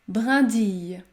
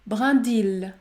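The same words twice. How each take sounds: First: The ending is said with a 'y' sound. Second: The ending is said with an 'l' sound. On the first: The speaker calls it right. "vous devez prononcer le son I" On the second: The speaker calls it wrong. "Ce mot ne se prononce pas brindille"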